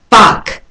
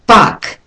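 The two takes are said the same way.

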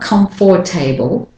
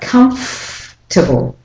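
First: The middle 'or' syllable is fully pronounced. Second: The middle 'or' syllable is dropped completely. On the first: The speaker calls it wrong. "it's not comfortable" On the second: The speaker calls it right. "The or syllable is dropped completely"

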